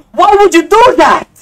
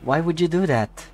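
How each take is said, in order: First: High, loud disbelieving cry; shouting at the auction seller in disbelief, high and loud; incredulous shout. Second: Said in the usual way. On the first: Real, not acted. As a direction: yell it in outraged disbelief. Seller undersells a Skyline.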